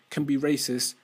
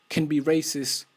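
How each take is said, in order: Both takes have the same delivery.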